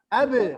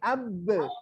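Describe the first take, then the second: First: The syllable is said directly, without wavering. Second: The syllable is said hesitantly, with wavering. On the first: The speaker calls it right. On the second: The speaker calls it wrong. "Ada yang ragu seperti ini"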